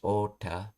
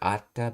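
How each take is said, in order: First: The word begins with an O sound. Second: The word begins with an A sound. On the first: This is the regional past form of meet. "he says it with an O" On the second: This is the standard past form of meet. "Normally it would be like atta"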